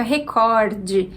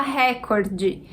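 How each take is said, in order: First: RECORDE as re-COR-de, open O; recorde stressed on COR. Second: RÉCORDE with open RÉ punched; recorde stressed on first syllable. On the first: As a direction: put the weight on the middle of recorde. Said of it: "a pronúncia fica recorde". (recorde com a tônica no "cor") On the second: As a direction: say recorde as RÉ-cor-de. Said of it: "muitas pessoas preferem falar recorde". (recorde com a tônica no "ré") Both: Shown as a demonstration.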